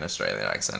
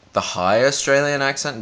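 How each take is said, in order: First: A low, soft broad Australian accent. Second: A higher, posher Australian accent. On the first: Broad Australian accent for other people. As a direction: drop into a broad Australian twang. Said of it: "people who have, like, an Australian". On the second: High Australian accent for her own voice. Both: Shown as a demonstration.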